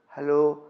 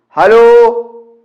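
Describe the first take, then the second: First: It is said softly. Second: It is said loudly.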